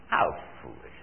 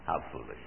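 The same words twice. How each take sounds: First: A breathy, hushed repeat of the scoff; whispered scorn. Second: A low, quiet scoff; scornful aside. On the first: Preacher repeating his scorn to the congregation, whispered. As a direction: whisper it, shaking your head at the folly. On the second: Preacher scoffing at evolution to the congregation, low and quiet. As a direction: dismiss the idea quietly with scorn. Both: Acted.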